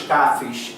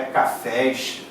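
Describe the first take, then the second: First: "cafés" with the stress on CA; first syllable of "cafés" stressed; wrongly stressed cafés. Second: "cafés" slowly, stress on FÉS; last syllable of "cafés" stressed and stretched; correct cafés. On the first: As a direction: say "cafés" as CÁ-fes. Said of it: "Não é me dá dois". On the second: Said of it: "é cafés". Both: Shown as a demonstration.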